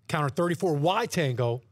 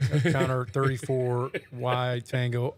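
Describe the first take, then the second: First: It is said confidently, with swagger. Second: It is said hesitantly, without confidence. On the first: The caller has been there and is in command. The speaker calls it right. "has the confidence, has the swagger" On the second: The caller is nervously trying not to mess up. The speaker calls it wrong. "That doesn't sound too confident"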